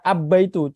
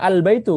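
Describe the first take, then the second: First: The 'l' merges into a doubled 'b' sound. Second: The 'l' is clearly pronounced before the 'b'. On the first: The speaker calls it wrong. "kalau misalkan kita pakai syamsiah abba itu susah" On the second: The speaker calls it right. "di ini dibaca jelas al"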